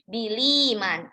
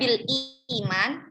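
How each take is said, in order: First: The glottal stop is dropped, joining both words. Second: The glottal stop before iman is kept. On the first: "dibaca naql menjadi biliman" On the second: "aslinya bil iman"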